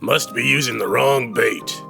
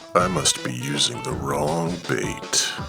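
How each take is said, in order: First: It is said in a plain, flat way. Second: It is said in a sly, suggestive way.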